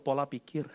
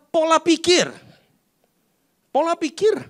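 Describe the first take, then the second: First: Quiet repeat. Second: Pola pikir, called out high and ringing; high emphatic answer. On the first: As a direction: let pola pikir fall away quietly. Preacher repeats answer softly. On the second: Preacher answers his own question. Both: Acted.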